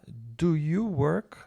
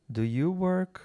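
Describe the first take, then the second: First: "Do you work" drawn out slowly, rising; slow model question. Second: "Do you work" lifted high as a question; better question intonation. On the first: Teacher modelling the auxiliary for students, "Do you work" slow and rising. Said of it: "você vai ter que falar". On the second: Teacher correcting their own model, "Do you work" with higher question intonation. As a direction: ask "Do you work" more fluidly, pitch up to "work". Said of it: "Uma entonação melhor". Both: Shown as a demonstration.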